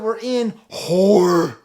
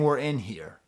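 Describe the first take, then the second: First: The word here is said with an o-like vowel. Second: The word here is said with its ordinary vowel. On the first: "this weird o sound" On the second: "Instead of saying"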